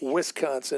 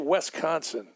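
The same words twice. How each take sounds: First: The first syllable has an I vowel. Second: The first syllable has an E vowel. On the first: "instead of" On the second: "with an E"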